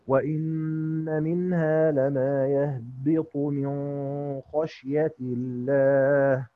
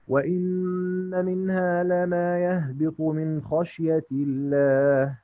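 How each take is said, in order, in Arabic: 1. تُخفى النون قبل الخاء بغنة. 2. تُنطق النون قبل الخاء بوضوح. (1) "هنقرأ بقى بالإخفاء بغنة للإمام أبو جعفر" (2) "هنقرأ بالإخفاء بالإظهار لقالون"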